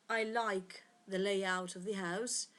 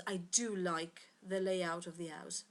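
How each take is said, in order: First: Said in the usual way. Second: "do" stressed, the rest even. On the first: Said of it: "the same example we said before". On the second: Shown as a demonstration. Teacher shows the class the emphatic "do". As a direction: lean on "do" in "I do like". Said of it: "To emphasize the fact that you like it".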